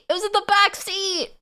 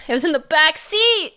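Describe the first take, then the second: First: Squeaky high outrage on back; high-pitched disbelief. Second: Said in the usual way. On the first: Real, not acted. Repeats the same line, higher.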